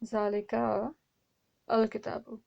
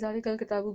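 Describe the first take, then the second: First: The vowel before al kitabu is pronounced separately. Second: It is said fast with that vowel silent. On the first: "originally क्या था" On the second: "fast कहते कहते"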